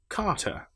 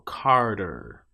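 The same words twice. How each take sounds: First: The final r sound is not pronounced. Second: The final r sound is strongly pronounced. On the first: "If I'm saying the word Carter, ... I would say car, ... R, and then er" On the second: "But if I'm North American, I'll say Carter"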